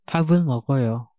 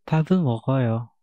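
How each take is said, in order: No difference in how they are said.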